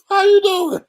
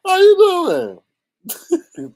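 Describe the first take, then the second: First: Laughing. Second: Drawn-out greeting. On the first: Greeting pastor, laughing. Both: Real, not acted.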